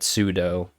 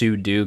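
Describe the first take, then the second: First: The word ends with a different vowel sound. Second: The word ends with a 'doo' sound. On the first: It is the other common way people say it. "but sudo" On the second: It follows the command's origin in 'super user do'. "technically it's sudo because it's super user do"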